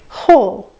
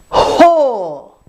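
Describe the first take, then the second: First: The h has a light, natural puff of air. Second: The h has a forced, strong burst of air. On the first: The speaker calls it right. "Should sound like whole" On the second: The speaker calls it wrong. "not forcing them, like whole"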